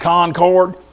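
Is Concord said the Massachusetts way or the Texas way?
Texas. It is said with a Texas pronunciation. This is how an outsider from Texas says the name. The speaker calls it wrong. "Y'all mean Concord?"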